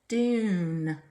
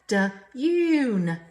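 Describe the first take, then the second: First: The word is blended smoothly into one syllable. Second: The word is split into two separate syllables. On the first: The speaker calls it right. "Make your mouth change it to fit" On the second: The speaker calls it wrong. "Instead of saying da-yoon, we don't talk like that"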